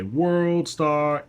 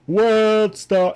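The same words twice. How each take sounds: First: Higher hyped "World Star" call. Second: "World Star" yelled much higher and louder; triumphant yell. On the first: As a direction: throw out "World Star" like a hype shout. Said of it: "pop off and say". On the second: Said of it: "And I'd be like". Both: Retold or imitated.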